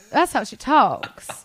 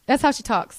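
First: Very slow, genteel Southern accent; stately, stretched-out Southern drawl; regal Southern drawl. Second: Said in the usual way. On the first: Shown as a demonstration. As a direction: draw it out like a regal Southern grandmother. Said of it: "it's slow and r-, regal".

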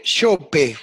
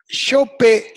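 First: Said in the usual way. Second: Yope said high and loud; emphatic name. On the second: Real, not acted. Guest insists the hosts play Yope, loud and high. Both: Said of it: "tenés que poner".

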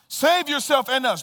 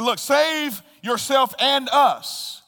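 First: Said in the usual way. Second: Slow, raised, scornful demand; rejecting taunt. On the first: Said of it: "repeat for emphasis". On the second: Acted. Thief rejecting Jesus, slow loud taunt. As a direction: throw it at him with scorn. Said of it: "The thief said in rejection".

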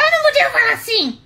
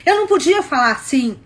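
First: Fast, loud, high-pitched angry yell; angry outburst demo. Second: Louder, firm and cross; demonstrated anger. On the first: Woman demonstrating the voice her boyfriend couldn't take, angry yell. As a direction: burst out yelling to show the forbidden tone. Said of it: "Olha como isso faz diferença". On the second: Woman showing the tone her boyfriend disliked, demonstrated anger. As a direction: show the forbidden cross tone, moderately. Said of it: "Eu não podia ficar com raiva". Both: Shown as a demonstration.

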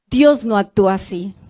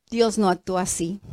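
First: Said in the usual way. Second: Softer, hushed statement; quiet. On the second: Shown as a demonstration. Preacher hushes the congregation first, quiet and grave. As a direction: drop the voice low and earnest.

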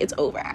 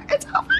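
First: Said in the usual way. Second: It's over jumped way up high in a dramatic cry; hammed-up heartbroken squeal; mock wail. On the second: Mock despair repeat.

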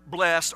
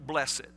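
First: BLESSED as one syllable, blest; one-syllable pronunciation. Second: BLESSED in two syllables, lower and softer, bless-ed; two-syllable pronunciation. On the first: Preacher offers the English word we plug in, one-syllable "blessed". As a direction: say "blessed" with no separate ED, rhyming with best. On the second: Preacher grants the alternative if you want, two-syllable "blessed". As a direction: sound the ED in "blessed" as its own quiet syllable. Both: Shown as a demonstration. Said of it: "or if you want".

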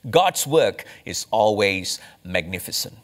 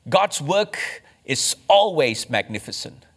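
First: Said in the usual way. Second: Always lifted and leaned on, slower; stress on always. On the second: Shown as a demonstration. Pastor repeats the principle to his congregation, stressing always. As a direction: repeat it, pressing hard on always. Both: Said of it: "Let me give you the second applicational principle".

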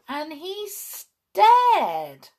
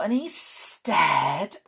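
First: Very slow, with "stared" swooping high; high, drawn-out astonishment. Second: Slow, lingering narration at usual pitch; drawn out. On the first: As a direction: stretch "stared" high for comic amazement. Repeated with mounting astonishment. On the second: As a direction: stretch out "stared". First take of repeated stare. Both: A narrator's reading.

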